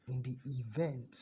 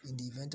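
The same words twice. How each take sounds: First: "event" slowed and leaned on; stress on EVENT. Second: Said in the usual way. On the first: Shown as a demonstration. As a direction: say "event" slowly with deliberate emphasis. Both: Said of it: "emphasis on the word event".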